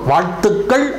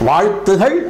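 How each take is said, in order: First: The k sound before the ending is doubled. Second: The k sound before the ending is single. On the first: The speaker calls it wrong. "அப்படின்னு சொல்லக்கூடாது" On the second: The speaker calls it right. "அப்படின்னு சொல்லணும்"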